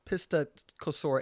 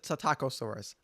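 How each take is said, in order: First: The word begins with a 'pis' sound. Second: The word begins with a 'sit' sound. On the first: The speaker calls it wrong. "It's not Pistacosaurus" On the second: The speaker calls it right. "It's it's the Psittacosaurus"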